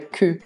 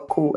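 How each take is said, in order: First: The vowel is a fronted, rounded u sound. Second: The vowel is a plain back u sound. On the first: The speaker calls it right. "Esse U é um pouquinho diferente" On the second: The speaker calls it wrong. "Ele não é só cu"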